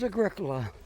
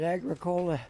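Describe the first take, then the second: First: It is pronounced the way locals say it. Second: It is pronounced the way it is spelled. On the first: The speaker calls it right. "the correct pronunciation is Agricola" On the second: The speaker calls it wrong. "I was just pronouncing it as it's spelled"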